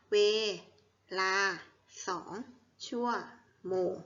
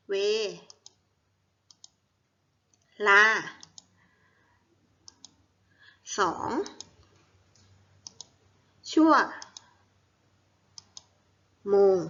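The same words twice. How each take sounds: First: Measured choral-reading pace; read-along syllables. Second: Each syllable alone, very long pauses between; syllable-by-syllable dictation. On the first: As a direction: separate syllables with short, even pauses. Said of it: "อ่านพร้อมๆกันอีกทีค่ะ". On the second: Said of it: "อ่านว่า". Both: Shown as a demonstration.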